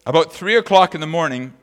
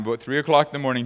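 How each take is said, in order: First: Said in the usual way. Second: Quicker, lighter retelling; hurried repeat of the time; faster repeat. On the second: Shown as a demonstration. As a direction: rattle the phrase off faster.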